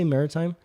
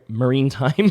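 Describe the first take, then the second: First: The middle syllable is a short 'ri'. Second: The middle syllable sounds like 'rine'. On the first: The speaker calls it right. "That's how you say it" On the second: The speaker calls it wrong. "I was saying marine"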